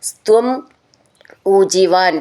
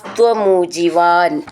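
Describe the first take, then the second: First: The two words are said separately. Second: The two words are merged into one.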